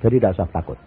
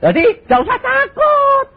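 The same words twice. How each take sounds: First: Said in the usual way. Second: Loud reassurance. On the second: Shown as a demonstration.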